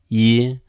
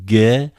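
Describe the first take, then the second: First: The syllable begins with a y sound. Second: The syllable begins with a hard g sound. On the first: "some people pronounce like y" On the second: "You may expect like the first one"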